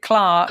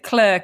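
First: It is said in a British accent. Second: It is said in an American accent.

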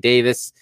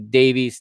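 First: It is said the British way. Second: It is said the American way.

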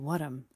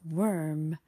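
First: An extra vowel comes before the final m. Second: No extra vowel comes before the final m. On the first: "I would say worm" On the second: "the word worm in English"

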